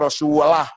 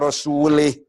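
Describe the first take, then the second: First: The word ends with an 'ah' sound. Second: The word ends with an 'ih' sound. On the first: Allah and His messenger are both free of the idolaters. The speaker calls it right. "Bacanya harus" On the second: Allah is free of the idolaters and of His messenger. The speaker calls it wrong. "Salah itu"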